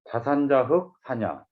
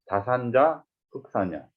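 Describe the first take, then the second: First: The phrase is read evenly without rhythmic breaks. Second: The phrase is read with clear pauses between parts. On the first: The reader does not grasp the sentence structure. The speaker calls it wrong. "그냥 자산자 흑 사냐 이런 식으로 읽으면 이 문장을 잘 파악을 못하고 있는" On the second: The reader shows the sentence structure. The speaker calls it right. "요런 식으로 그게 딱 맞게 읽어 주시는 게 중요"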